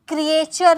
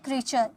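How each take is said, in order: First: The word has three syllables, kri-e-cher. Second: The word has two syllables, kree-cher. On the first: The speaker calls it wrong. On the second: The speaker calls it right.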